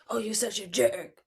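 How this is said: It is said in a mean tone.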